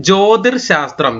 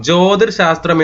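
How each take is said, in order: The two takes are said the same way.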